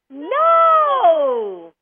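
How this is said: It is said happily.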